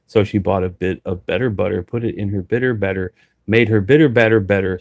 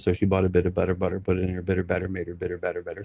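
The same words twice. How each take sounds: First: It is said fairly slowly. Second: It is said fast.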